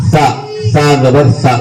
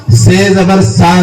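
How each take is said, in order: First: Slow "سا" as th, gap between tongue tip and teeth. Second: Slow, higher "سے زبر سا" with a plain s; se misread as sa. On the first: Teacher demonstrating correct reading, slow th-like "سا زبر سا". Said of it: "دونوں فاصلہ رکھنے سے سا کی آواز نکلتی ہے". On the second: Teacher rejecting a common reading, slow higher plain-s "سے زبر سا". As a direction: spell "سے زبر سا" slowly with an ordinary s. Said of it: "سے زبر سا نہیں ہے". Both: Shown as a demonstration.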